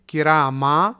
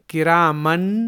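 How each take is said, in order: First: The word ends with a long vowel. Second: The word ends with an n sound. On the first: The speaker calls it right. "बल्कि किरामा पढ़ना होगा" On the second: The speaker calls it wrong. "इसे किरामन नहीं"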